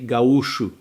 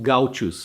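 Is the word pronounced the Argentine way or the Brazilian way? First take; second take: Brazilian; Argentine. First: The word has the Brazilian pronunciation. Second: The word has the Argentine pronunciation. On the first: "but in Brazil we say gaúcho, ... just the pronunciation is different" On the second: "So all those people they are called gauchos"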